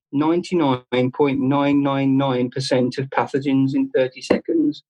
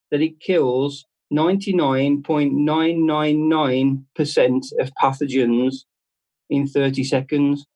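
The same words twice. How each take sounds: First: Said in the usual way. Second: "ninety-nine point nine nine nine" read out slowly, each nine drawn out; deliberate slow read of "ninety-nine point nine nine nine"; slow label reading. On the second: Shown as a demonstration. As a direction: spell out the figure slowly like reading small print. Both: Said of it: "it actually says on this".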